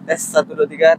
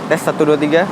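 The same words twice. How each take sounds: First: Background noise is filtered out of the sound. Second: Background noise is left in, unfiltered. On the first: "gue aktifin fitur noise cancelling atau reduction" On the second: "reduction-nya gue nonaktifin ya. Ini suara aslinya"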